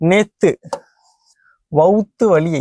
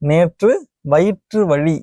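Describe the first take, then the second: First: The words are said in reduced colloquial form. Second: The words are said in full formal form. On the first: The speaker calls it wrong. "பேச்சு வழக்கு" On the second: The speaker calls it right. "என சொல்லுதல் வேண்டும்"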